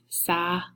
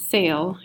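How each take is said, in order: First: The word is pronounced the Spanish way. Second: The word is pronounced like English 'sail'. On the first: The speaker calls it right. "how we pronounce it in Spanish" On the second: The speaker calls it wrong. "It's not sail"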